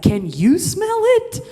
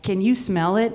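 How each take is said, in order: First: High, slow, mocking echo of the question, laughing; incredulous high mock echo. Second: Said in the usual way. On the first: Boyfriend mocking her question in a high, slow voice. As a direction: throw her question back at her, squeaky and amazed. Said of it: "And he's like". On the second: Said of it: "I'm like".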